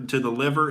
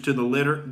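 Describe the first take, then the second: First: "liver" said properly with a clear v; self-correction. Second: "litter" said with a clear t in place of the v; slip of the tongue. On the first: Comic correcting himself to "liver" after the slip. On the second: Comic slipping on "litter" while naming liver damage. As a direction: misspeak "litter" with a t sound. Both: Real, not acted.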